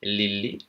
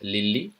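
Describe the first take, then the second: The two takes are said the same way.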